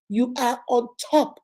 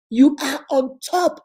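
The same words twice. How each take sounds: First: Said in the usual way. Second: "You are on top" with YOU punched and drawn out; slow down and hit "You" hard, louder; "You" stressed, the whole phrase slower and louder. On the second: Shown as a demonstration.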